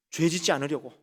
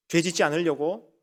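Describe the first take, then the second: No difference in how they are said.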